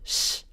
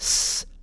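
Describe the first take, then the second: First: The hissing sound is pulled back toward sh. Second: The hissing sound is made at the front. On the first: "the retracted S, a sound in between the S and the sh" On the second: "a frontal S, which is the one that we use in English"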